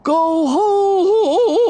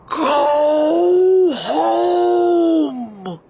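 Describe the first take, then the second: First: High, loud yodeling howl; yodeling wind. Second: Howling wind voice, high and loud; squalling wind. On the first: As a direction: yodel it like the gale. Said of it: "the wind yodeled". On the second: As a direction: squall it like a gale. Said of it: "the wind squalled". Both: A narrator's reading.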